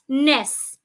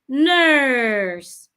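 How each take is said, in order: First: The vowel is short. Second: The vowel is long. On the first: The speaker calls it wrong. "not ness" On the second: The speaker calls it right. "Make it a long sound"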